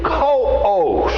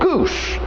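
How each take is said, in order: First: The name is said with two syllables. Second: The name is said with one syllable. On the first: The speaker calls it right. "it's a two-syllable word. It is Coos" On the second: The speaker calls it wrong. "I would have probably said goose"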